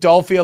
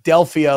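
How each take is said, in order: First: The middle syllable has an 'o' vowel, like 'doll'. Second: The middle syllable has an 'e' vowel, like 'dell'. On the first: "you're saying Dolphia like Dolph Lundgren" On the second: "most people pronounce it Delphia like the Oracle of Delphi"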